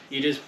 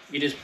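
The two takes are said the same way.

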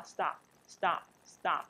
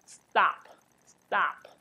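First: The normal stop, no puff on the t; natural stop. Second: A slow, odd stop nobody would say; wrong stop. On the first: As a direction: stop said slowly with a plain unaspirated t. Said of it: "不带有aspiration的特的声音". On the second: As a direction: stop said slowly with the t wrongly aspirated or voiced. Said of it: "你不会这样发". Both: Shown as a demonstration.

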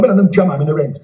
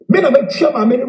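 First: Me na metua maame no rent with me stressed, falling firmly at the end. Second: Me na metua maame no with me stressed, rising at the end. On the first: Insisting to listeners he pays his mother's rent, falling firmly. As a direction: land me down hard and finish. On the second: Insisting to listeners he pays his mother's rent, rising. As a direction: push me up and leave it hanging. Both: Real, not acted.

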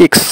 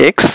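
First: ইক্স said "iks" with short i; ইক্স opening on an i vowel; German letter name. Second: এক্স said "eks" with e; এক্স opening on an e vowel; English letter name. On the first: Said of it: "এটাকে বলা হয় ইক্স". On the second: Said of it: "আর এক্স". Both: Shown as a demonstration.

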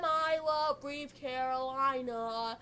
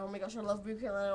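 First: Slow, drawn-out declaration. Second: Fast, tumbling gush; rushed. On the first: Fan professing love for [name], slow and drawn out. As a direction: savour every word. Repeats band love line. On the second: Fan gushing about [name], fast rushed words. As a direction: blurt it out in a rush. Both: Real, not acted.

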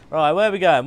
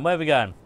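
First: Loud call. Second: Said in the usual way. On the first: Acted.

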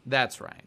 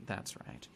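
First: Said in the usual way. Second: Soft whispered echo; whispered under the breath. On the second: Shown as a demonstration. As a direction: breathe it out as a secret. Repeats agreement then whispers it.

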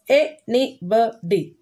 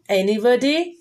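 First: "Anybody" slowly, in four separate beats; slow "Anybody", a gap after each syllable. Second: Said in the usual way. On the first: Shown as a demonstration. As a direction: break "Anybody" into an-y-bo-dy. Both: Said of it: "These are four syllable words".

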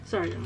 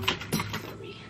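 First: Said in the usual way. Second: Whispered apology "Sorry.". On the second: Real, not acted. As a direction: breathe "Sorry." with no voice.

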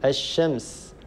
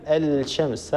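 First: الشمس with the L merged into a doubled sh; correct assimilation. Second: الشمس with the L of the article sounded before sh; wrong pronunciation. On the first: Tajweed teacher models the L merging into sheen, "ash-shams" in الشمس. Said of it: "اللام تدغم في الشين". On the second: Tajweed teacher shows the mistake to avoid, L sounded in الشمس. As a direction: say "al-shams", a clear L left unmerged in الشمس. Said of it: "لا يصح أن نقول". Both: Shown as a demonstration.

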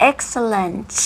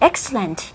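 First: "excellent" slowly, with a long released final T; over-articulated ending on "excellent"; clear final consonant. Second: Said in the usual way. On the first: Shown as a demonstration. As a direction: push out the last T of "excellent". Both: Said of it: "พยัญชนะสุดท้าย".

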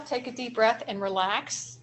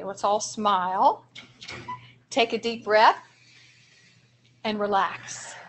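First: Said in the usual way. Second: Slow, soothing breathing cue with pauses; slow calming demo. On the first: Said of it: "a strategy we call star". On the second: Shown as a demonstration. Trainer guiding teachers through a calming exercise, slow and soothing. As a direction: lead the group gently through the breath. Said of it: "I want you guys to practice this with me".

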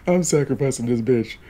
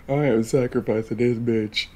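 First: Laughing through the words. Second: Firm, with "I" stressed; firm declaration. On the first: Streamer announcing Chloe's sacrifice, laughing. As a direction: giggle it out, can't keep a straight face. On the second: Streamer restating her choice to viewers, firm stress on "I". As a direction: state it flatly and mean it. Repeats it firmly. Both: Real, not acted.

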